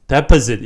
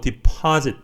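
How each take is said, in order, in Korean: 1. 강세는 첫 번째 음절에 있어요. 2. 강세는 두 번째 음절에 있어요. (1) "이렇게 얘기, 얘기하시면 안 돼요" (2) "파에 강세가 있다는 거 어, 잊어버리지 마시고요"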